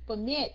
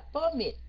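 First: The stress is on the second syllable. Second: The stress is on the first syllable. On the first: It is the verb. The speaker calls it right. "Nhấn âm 2" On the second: It is the noun. The speaker calls it wrong. "Mình không có nói là permit"

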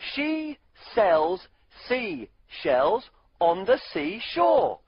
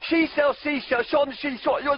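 First: The sentence is said at a normal pace. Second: The sentence is said at a fast pace. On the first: "Why don't you try saying our tongue twister with us?" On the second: "Try saying it really fast"

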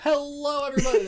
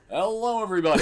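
First: The voice is pitched high and energetic. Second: The voice is pitched low and deep. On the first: "I go high for the energy things" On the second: "if I did that low, I'd just sound like Markiplier"

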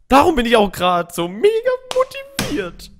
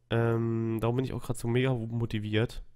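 First: The voice is lively and full of energy. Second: The voice is flat and low in energy.

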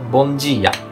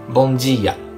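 Both takes have the same delivery.

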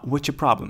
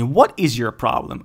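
First: The words 'what is' are contracted into 'what's'. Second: The words 'what is' are said fully, separately. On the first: The speaker calls it right. "а what's your problem?" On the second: The speaker calls it wrong. "Не what is your problem"

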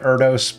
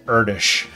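First: It is said the way the spelling suggests. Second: It is said with a Hungarian-style pronunciation. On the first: The speaker calls it wrong. "It looks like Erdős" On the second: The speaker calls it right. "but I believe it's Erdős"

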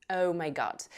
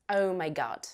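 No difference in how they are said.

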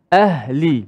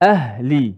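No difference in how they are said.

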